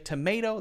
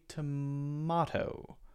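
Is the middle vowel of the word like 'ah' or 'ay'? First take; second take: ay; ah. First: The middle vowel sounds like 'ay'. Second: The middle vowel sounds like 'ah'. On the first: "There's an A sound there" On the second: "More of an ah sound there"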